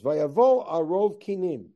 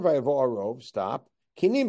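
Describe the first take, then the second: First: The words run together without a break. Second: There is a clear break after 'arov'. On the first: The mixture is made of different kinds of lice. "He reads it as follows" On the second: The mixture and the lice are separate things. "If I read it with Tamei Mikra, it's vayavo arov. Stop"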